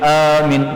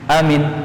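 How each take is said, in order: First: The first vowel is long, the second short. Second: Both the first and second vowels are short. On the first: It names a guard who protects. "hamzahnya panjang, mimnya pendek" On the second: It is a person's name. "Kalau dua-duanya pendek"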